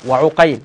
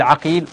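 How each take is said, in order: First: وعقيل said wa-Uqayl, with u and ay; damma on first letter. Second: عقيل said Aqil, with a and long i; fatha on first letter. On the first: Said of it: "فيقال بضم أوله". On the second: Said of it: "أو يقول بفتح الجيم". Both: Shown as a demonstration.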